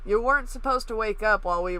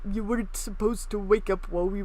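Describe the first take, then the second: First: It is read in the speaker's normal voice. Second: It is read in a put-on character voice.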